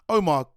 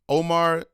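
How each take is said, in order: First: The name is said in a British accent. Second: The name is said in an American accent.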